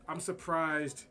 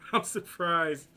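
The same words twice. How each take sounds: First: Said in the usual way. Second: "I'm surprised" said slowly through a laugh, louder. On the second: Real, not acted. Says it again while laughing.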